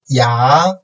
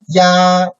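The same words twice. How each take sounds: First: The pitch rises from mid to high. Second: The pitch stays high and level.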